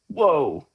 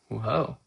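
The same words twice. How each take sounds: First: It is a loud, big exclamation. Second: It is a small, subtle exclamation.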